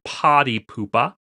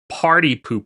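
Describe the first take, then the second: First: The r sounds after vowels are dropped. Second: The r sounds after vowels are pronounced.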